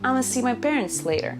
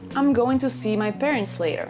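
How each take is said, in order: First: 'I'm going to' is squeezed into two syllables. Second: Every word of 'I'm going to' is said fully. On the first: "But you can also say" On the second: "You can say"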